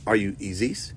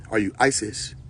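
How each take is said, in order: First: "Isis" said as EE-zees; EE-sis pronunciation. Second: "Isis" said as EYE-sis; EYE-sis pronunciation. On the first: Asking which deity someone is, "Isis" pronounced EE-zees. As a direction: open "Isis" with a long EE sound. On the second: Asking which deity someone is, "Isis" pronounced EYE-sis. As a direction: open "Isis" with an EYE sound. Second variant of the same name. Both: Shown as a demonstration.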